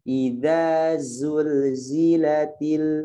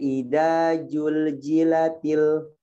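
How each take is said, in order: First: The consonants are pronounced with a z sound. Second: The consonants are pronounced with a j sound. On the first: The speaker calls it right. "ada z, z, z, gitu ya" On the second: The speaker calls it wrong. "Ini salah ya. Tidak boleh ida jul jilatil, nggak boleh ya"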